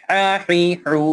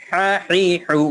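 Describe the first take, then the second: No difference in how they are said.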